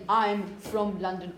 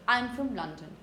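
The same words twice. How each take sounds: First: The word 'from' is said fully and clearly. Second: The word 'from' is said weak and reduced. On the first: The speaker calls it wrong. "Unless you want to talk like Massey, you don't say" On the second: The speaker calls it right. "In normal conversation, you say"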